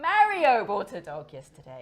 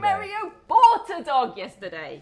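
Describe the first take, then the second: First: The word Mario carries the main stress. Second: The word bought carries the main stress. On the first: It was Mario, not Maria. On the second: He bought it, he did not steal it.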